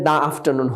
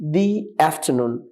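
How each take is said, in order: First: 'The' is said with a short 'uh' vowel. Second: 'The' is said with a long 'ee' vowel. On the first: The speaker calls it wrong. "এখানে দা afternoon হবে না সাধারণত" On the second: The speaker calls it right. "দি হবে"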